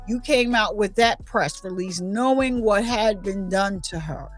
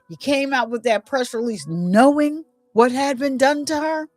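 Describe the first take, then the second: First: It is said as a statement, falling at the end. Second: It is said as a question, rising at the end. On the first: It states an accusation. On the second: It asks a question.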